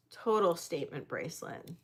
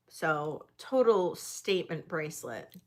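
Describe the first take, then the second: First: Repeated softly with a rising tone; quiet admiring echo. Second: Said in the usual way. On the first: Real, not acted. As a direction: murmur it back to yourself.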